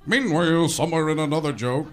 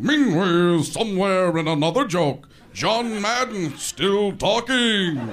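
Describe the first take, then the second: First: Restrained announcer cut-in. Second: Loud, drawn-out announcer bellow; cut-in announcer. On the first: Announcer cutting to another joke, toned-down delivery. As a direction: announce it at an ordinary volume. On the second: Guy barging in after a joke didn't work, booming announcer. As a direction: boom it out like an announcer. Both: Acted. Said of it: "that guy would come in and go".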